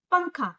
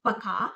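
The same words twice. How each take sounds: First: पंखा with a clear nasal n before kha. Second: पखा said without the nasal n, plain pa-kha. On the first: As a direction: hum the n through the nose in पंखा. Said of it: "इसको बोलते समय हमारे नाक से". (पंखा नाक से बोलकर) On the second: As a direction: drop the nasal sound in पखा. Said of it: "ये हुआ पखा". (पखा बिना अनुस्वार के) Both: Shown as a demonstration.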